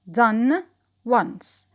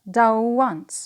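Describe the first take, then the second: First: 'Done' ends in a plain n sound. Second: 'Done' ends in a w sound linked to once.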